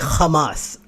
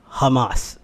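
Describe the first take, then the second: First: It starts with a throaty, K-like H sound. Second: It starts with a plain, soft H sound. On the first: "They always say Hamas" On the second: "they never pronounce it uh, like Hamas. It's an H"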